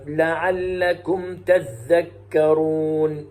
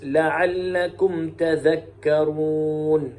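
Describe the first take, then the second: First: Very slow melodic recitation, doubled dhal in "تذكرون"; Shu'ba's recitation. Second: Slow melodic recitation, single light dhal in "تذكرون"; Hafs's recitation. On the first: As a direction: chant "تذكرون" as tadhdhakkaruun. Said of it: "فيقرأ هكذا". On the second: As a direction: chant "تذكرون" as tadhakkaruun. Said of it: "ويقرأ حفص". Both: Shown as a demonstration.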